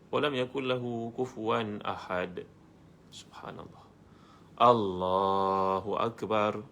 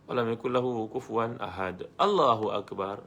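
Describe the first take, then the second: First: A clear pause separates the verse and Allahu akbar. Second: Allahu akbar follows the verse with no pause.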